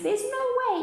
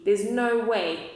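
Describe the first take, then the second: First: Put-on much higher squeaky baby voice; baby kangaroo. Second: Slow scornful denial; kangaroo mother. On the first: Baby kangaroo echoes its mother, high squeaky voice. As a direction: pipe it up like a tiny joey. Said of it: "Even the kangaroo's baby says". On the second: Acted. Mother kangaroo scoffs at Horton, slow scornful voice. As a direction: drag it out, not believing a word. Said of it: "So the kangaroo says".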